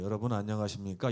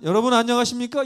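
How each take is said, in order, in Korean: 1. 이 인사는 낮고 가라앉은 목소리로 합니다. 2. 이 인사는 크고 높은 목소리로 합니다. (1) "그때는 목소리가 굉장히 낮았어요" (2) "자꾸 큰 소리를 내는 것입니다"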